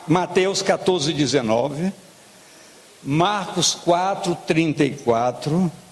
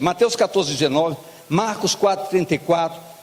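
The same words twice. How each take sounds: First: The references are read slowly and deliberately. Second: The references are read quickly, without lingering. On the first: The speaker calls it right. "vou bem devagarinho" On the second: The speaker calls it wrong. "Estava narrando o jogo?"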